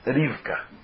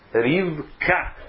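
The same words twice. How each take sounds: First: The stress is on the first syllable. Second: The stress is on the last syllable. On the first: The speaker calls it wrong. "Como que se fala por aí afora?" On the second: The speaker calls it right. "Também é oxítona"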